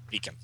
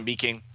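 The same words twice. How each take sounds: First: Said in the usual way. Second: "beacon" said as "bee-king"; misread ending. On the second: Real, not acted. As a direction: end "beacon" in -ing, like "beaking". Misreads word, then corrects it.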